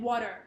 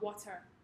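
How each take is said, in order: First: The middle T sound is clipped. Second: The middle T sound is fully pronounced. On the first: The speaker calls it right. "they tend to clip the D and T sounds in the middle of the word" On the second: The speaker calls it wrong.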